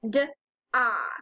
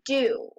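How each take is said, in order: First: The vowel is pronounced like 'ah'. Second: The vowel is pronounced like 'oo'. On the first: The speaker calls it wrong. "If you try to sound it out, you might say d-ah. But da doesn't quite sound right" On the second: The speaker calls it right. "the O says oo in this word"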